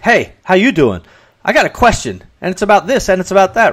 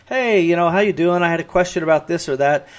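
First: Curt reading. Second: A light, easy friendly read of your own message; nice friendly way. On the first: Recipient hearing the email as mildly brusque and pushy. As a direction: read it as if the sender is annoyed and demanding. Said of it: "But when the other person reads it, they're like". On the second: Writer reading own email to themselves, lightly friendly. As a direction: say it breezy and friendly, like to a pal. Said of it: "we say 'em in a nice, friendly way". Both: Retold or imitated.

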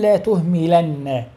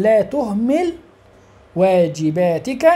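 First: لا تهملن said slowly with a doubled nun at the end; with the emphatic nun. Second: لا تهمل said plainly with final lam, no nun; تهمل ends on a bare lam; without the nun. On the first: Teacher gives the emphatic form to the class, with the nun drawn out. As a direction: stretch the نّ of تهملن. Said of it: "ويجوز أن أقول". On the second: Teacher gives the plain form of the verb to the class, without the nun. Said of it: "يجوز أن أقول". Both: Shown as a demonstration.

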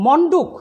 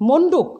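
First: মণ্ডুক with open "aw" first vowel; as written. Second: মণ্ডুক with closed "o" first vowel; pronounced with O. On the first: Teacher reading out the spelling, মণ্ডুক with open aw. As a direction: say মণ্ডুক as "mawn-duk". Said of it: "লিখি". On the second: Teacher giving the spoken form, মণ্ডুক with closed o. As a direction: say মণ্ডুক as "mon-duk". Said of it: "উচ্চারণ করব". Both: Shown as a demonstration.

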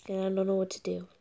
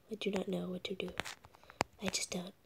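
First: Said in the usual way. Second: Whisper. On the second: Real, not acted. Gamer whispering his confusion to the camera. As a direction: breathe it out like a secret.

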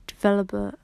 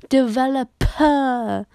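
First: Said in the usual way. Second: Slow, louder, laughing "Developer"; laughing through the word. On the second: Real, not acted. Finally saying "Developer" right, laughing and slow. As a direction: drag out "Developer" while laughing. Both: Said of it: "I keep saying developer".

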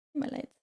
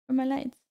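First: Muttered to herself. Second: Said in the usual way. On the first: Real, not acted. Repeated softly to herself.

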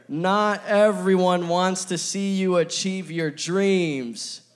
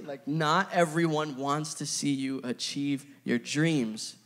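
First: Slow, loud group reading of the point; reading together aloud. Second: Said in the usual way. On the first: Shown as a demonstration. Preacher leading the church to read the point slowly aloud. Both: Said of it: "We can read it together".

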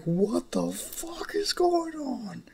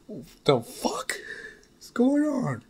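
First: High, slow, drawn-out disbelief; stunned yell. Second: A voiced Bakugo cursing, the last words shooting much higher; Bakugo's outburst. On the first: Acted. Young Izuku seeing his future family, slow, high-pitched disbelief. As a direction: stretch it out in total shock. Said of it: "And it's like". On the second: Bakugo stunned by his future family, cursing in a pitched-up voice. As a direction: bark the question as a stunned hothead. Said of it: "This is Bakugo's words".

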